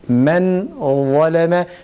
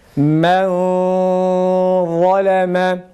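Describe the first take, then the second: First: The n sound is pronounced clearly and fully. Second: The n sound is hidden, only nasalized. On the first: It is read without the recitation rules. "tecvidsiz okuduğumuz zaman men nunu açığa çıkarıyoruz. Açık bir şekilde okuyoruz" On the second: It is read with the recitation rule of concealment. "ihfa yaparken e, nunu gizliyoruz"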